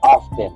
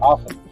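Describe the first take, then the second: First: Every letter of the word is clearly pronounced. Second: The word is said casually, not every letter pronounced. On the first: It is the careful, formal way of saying it. "I wouldn't enunciate every letter. ... I don't say often" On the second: It is how native speakers say it with friends. "I say often. ... that's a more like casual way of saying it"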